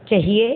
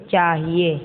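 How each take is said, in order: First: चाहिए with a short first vowel, "chahiye" as "chuh-hiye"; mispronounced चाहिए. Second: Said in the usual way. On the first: Shown as a demonstration. (चाहिए को गलत "चहिए" बोलना) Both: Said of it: "अशुद्ध और शुद्ध".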